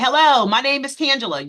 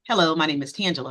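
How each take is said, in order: First: It is said at a louder volume. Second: It is said at a quiet volume.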